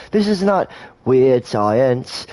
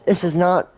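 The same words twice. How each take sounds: First: "this is not weird science" slow, each word leaned on; "this" hit hard and drawn slowly, then "not weird science" spaced out; slow stressed. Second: Said in the usual way. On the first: Shown as a demonstration.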